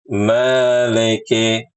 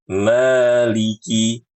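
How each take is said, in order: First: The vowels after l and k sound like e. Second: The vowels after l and k sound like i. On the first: The speaker calls it wrong. "tidak menyempurnakan harokat kasroh pada huruf lam dan kaf" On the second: The speaker calls it right. "harusnya maliki"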